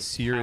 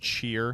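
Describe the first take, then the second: First: The word begins with an 's' sound. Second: The word begins with a 'ch' sound. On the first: The speaker calls it wrong. "I've just been pronouncing it wrong my whole life" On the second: The speaker calls it right. "actually pronounced cheer"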